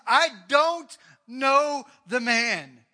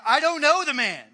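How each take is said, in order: First: Loud, very slow, every word hammered; furious sworn denial, slow and loud; cursing denial. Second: Loud, higher, sharp denial; angry oath, loud; swearing denial. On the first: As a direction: drag out each word as an oath. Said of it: "began to curse and swear". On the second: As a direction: bark it out to get rid of them. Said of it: "denied it again with an oath, swearing". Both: Acted.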